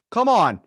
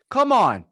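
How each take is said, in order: Both takes have the same delivery.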